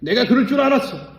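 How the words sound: It is said in an annoyed, irritated tone.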